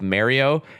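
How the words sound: The name is said with a Canadian pronunciation. "my Canadian pronunciation of Mario"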